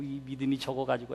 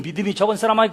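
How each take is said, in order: First: It sounds warm and compassionate. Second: It sounds harsh and scolding.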